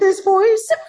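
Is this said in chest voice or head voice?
head. It is said in a lighter, higher head voice. This is the voice the school expected. "I wasn't singing it in this voice"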